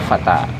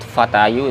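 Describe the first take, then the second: First: The word ends in a plain -a vowel. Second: The word ends with an added -yu syllable. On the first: This is how the word is actually said. The speaker calls it right. "Jadi mereka sebutnya fata" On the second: This is the theoretical full case ending. The speaker calls it wrong. "mereka nggak bisa sebut fatayu, itu nggak bisa"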